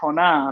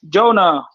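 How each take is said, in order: First: The name is pronounced the Spanish way. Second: The name is pronounced the English way.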